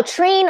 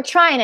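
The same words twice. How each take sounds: First: "Trine" with an AY vowel, like train; Trine as "trayn". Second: "Trine" with a long I vowel, as in try; Trine as "tryne". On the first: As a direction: say "Trine" to rhyme with rain. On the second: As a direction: say "Trine" to rhyme with shine. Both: Shown as a demonstration. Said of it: "I don't know how to pronounce".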